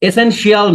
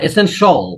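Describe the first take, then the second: First: The ending is said as three sounds, shee-al. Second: The ending is said as one syllable, shal. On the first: The speaker calls it wrong. "যত শিয়াল আছে ইংলিশে" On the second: The speaker calls it right. "সব হয়ে যাবে শল"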